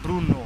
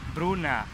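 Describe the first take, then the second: First: The final vowel sounds like o. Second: The final vowel sounds like a. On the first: "eles nunca falam Bruno" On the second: "tem som de meio que um A no final"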